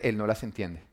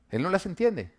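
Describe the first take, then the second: First: Said in the usual way. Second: "Él no las entiende" said again higher, stress on "las"; emphatic repeat. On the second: Shown as a demonstration. Preacher to the congregation about his son, insistent higher repeat. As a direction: lift the repeat to drive it home.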